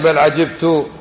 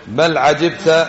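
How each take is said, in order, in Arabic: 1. تنتهي الكلمة الأخيرة بصوت 'u' قصير. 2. تنتهي الكلمة الأخيرة بصوت 'a' قصير. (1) "القراءة الثانية" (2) "قراءة حفص المشهورة عندنا"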